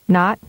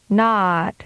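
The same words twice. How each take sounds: First: The vowel is held briefly. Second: The vowel is prolonged. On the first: "with a short vowel duration first" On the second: "and then with a longer duration"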